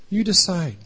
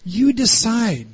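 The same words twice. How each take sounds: First: Said in the usual way. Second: "You decide" drawn out slowly, higher, stress on "You"; slow emphatic handover. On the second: Shown as a demonstration. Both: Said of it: "gave it back to them and said".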